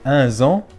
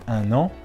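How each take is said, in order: First: A z sound links the two words. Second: No z sound links the two words. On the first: The speaker calls it wrong. "une liaison fautive qui n'existe pas entre un et an" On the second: The speaker calls it right. "normalement on dit un an"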